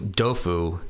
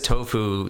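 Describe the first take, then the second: First: The word begins with a D sound. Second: The word begins with a T sound. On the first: "And they call it dofu" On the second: "So Joelle says tofu"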